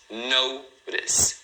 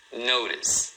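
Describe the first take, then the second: First: "notice" split into NO, pause, TIS with a tapped T; "notice" in two separate beats, silent final E; two syllables. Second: Said in the usual way. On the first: Shown as a demonstration. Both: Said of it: "Duas sílabas".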